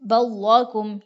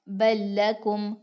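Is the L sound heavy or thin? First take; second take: heavy; thin. First: The L is thick, with the tongue raised. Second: The L is light, with the tongue kept low. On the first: The speaker calls it wrong. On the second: The speaker calls it right.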